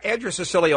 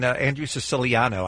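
First: The name is slurred and run together. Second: The name is articulated carefully and clearly. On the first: The speaker calls it wrong. "when I slurred his name the first time" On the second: The speaker calls it right. "I should say, more pronounced the better"

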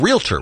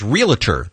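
First: The word is said without an added syllable. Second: The word is said with an added syllable. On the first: The speaker calls it right. "instead of realtor, which is correct" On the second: The speaker calls it wrong. "realtor that people say ... they both have extra syllables"

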